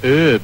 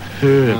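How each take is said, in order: First: The word starts without an h sound. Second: The word starts with an h sound. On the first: The speaker calls it wrong. "Americans saying herb" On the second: The speaker calls it right. "it's got an H"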